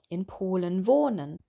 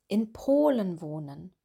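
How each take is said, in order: First: The stress is on the verb. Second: The stress is on the noun. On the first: The speaker calls it wrong. "dass sie vor allem das Verb betonen" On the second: The speaker calls it right. "Wir betonen hier immer das Nomen"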